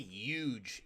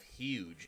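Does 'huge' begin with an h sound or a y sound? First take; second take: y sound; h sound. First: The word begins with a y sound. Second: The word begins with an h sound. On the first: The speaker calls it wrong. "not Y U G E" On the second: The speaker calls it right. "it's spelled H U G E"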